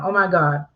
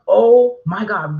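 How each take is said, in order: First: It is said in a calm, routine tone. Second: It is said in an excited, urgent tone.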